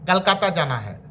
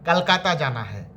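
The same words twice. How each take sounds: Both takes have the same delivery.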